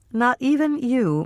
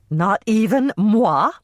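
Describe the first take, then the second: First: Said in the usual way. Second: A hint of a coy diva, slow and higher on "moi"; Miss Piggy moi. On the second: Mother fishing for the price, lightly mock Miss Piggy. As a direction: draw out "Not even moi?" a little higher, lightly piggy-grand. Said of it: "sounded just like Miss Piggy when she referred to herself as moi".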